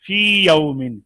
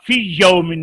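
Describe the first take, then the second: First: फी with a long "ee", then यौमिन unmerged; read separately. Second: फी cut short into a doubled y, "fiyy-yaumin"; wrongly merged. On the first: Teacher correcting the merge, फी held long and यौमिन kept separate. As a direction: stretch फी fully before starting यौमिन. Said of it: "मद्दा को अलहदा पढ़ेंगे". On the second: Teacher warning students off merging, फी यौमिन run together as "fiyyaumin". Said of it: "इसको आप फी यौमिन नहीं पढ़ेंगे". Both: Shown as a demonstration.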